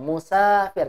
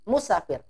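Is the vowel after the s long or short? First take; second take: long; short. First: The vowel after the s is long. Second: The vowel after the s is short. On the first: The word is read as written with alif. The speaker calls it right. "Ini dibaca panjang. Musafir karena ada alif" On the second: The word is read as if written without alif. The speaker calls it wrong. "Kalau tidak ada alif, dibaca musafir. Pendek ya"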